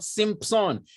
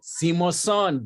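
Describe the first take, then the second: First: The name is said with two syllables. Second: The name is said with three syllables. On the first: The speaker calls it wrong. "it's not Simpson" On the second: The speaker calls it right. "it is a Simoson"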